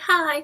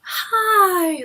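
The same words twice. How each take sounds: First: It is said in a plain, flat tone. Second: It is said with an excited gasp.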